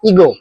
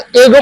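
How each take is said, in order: First: The first vowel is a long 'ee' sound. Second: The first vowel is a short 'eh' sound. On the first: The speaker calls it right. "इसको ही pronounce करते हैं इवनिंग की तरह" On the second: The speaker calls it wrong. "इसको तो एगो pronounce करना चाहिए था, नहीं"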